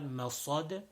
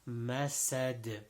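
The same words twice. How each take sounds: First: The s sounds heavy and emphatic. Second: The s sounds light and plain. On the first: The speaker calls it wrong. "people say the seen like a sod. So it is not masad" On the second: The speaker calls it right. "it is masad"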